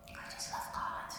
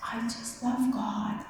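First: Breathy whisper, barely voiced. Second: Said in the usual way. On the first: Real, not acted. Speaker confesses his love for God in a near-silent whisper. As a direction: breathe it like a secret.

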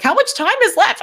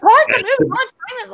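First: High, urgent question; anxious viewer checking the clock; frantic impatience. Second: Very high, louder frantic cries; desperate viewer wanting answers; panicked yelling. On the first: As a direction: demand it, voice jumping up. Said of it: "'Cause I was like". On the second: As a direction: yell it at the screen. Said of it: "I'm like". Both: Retold or imitated.

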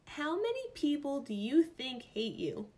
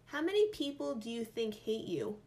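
First: Rereading it in disbelief; higher and louder, stunned; incredulous. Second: Said in the usual way. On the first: Real, not acted. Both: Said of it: "Is this a real question right now?".

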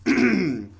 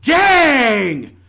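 First: Slow dramatic sigh of a word; dramatic Dang. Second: Dang yelled out loud and high; shouted Dang. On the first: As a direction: play it as a sorry exit line. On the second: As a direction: bellow Dang in mock despair. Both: Pretend. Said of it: "I will now do a dramatic monologue".

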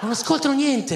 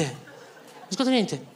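First: Said in the usual way. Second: Softer, slower, resigned; quiet slow repeat. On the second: Shown as a demonstration. Comedian repeating his complaint to the audience, quiet and slow. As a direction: mutter it again, drained and slow.

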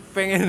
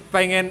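Both takes have the same delivery.

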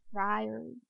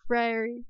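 First: Friary again, much softer, with a small lift at the end; hushed, rising Friary; soft repeat. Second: Friary tasted aloud; savoring a new word. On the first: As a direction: murmur Friary to yourself with relish. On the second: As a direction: say Friary slowly, relishing each sound. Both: Shown as a demonstration. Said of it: "one of my new favorite words".

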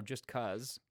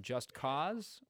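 First: 'Cause said with a short "uh" vowel, like "cuz"; 'Cause rhyming with "buzz"; casual 'Cause. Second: Said in the usual way. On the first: Shown as a demonstration. Offers the title's alternative pronunciation.

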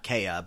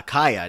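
First: "Kaya" as KAY-uh, first syllable like "day"; KAY-a pronunciation. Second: "Kaya" as KY-uh, first syllable like "eye"; KAI-a pronunciation. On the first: Host rejecting the other version, "Kaya" as KAY-uh. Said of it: "Kaya, not Kaya". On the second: Host fighting to say it right, "Kaya" as KY-uh. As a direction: say "Kaya" with a long I, KY-uh. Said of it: "fighting in my own head to say". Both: Shown as a demonstration.

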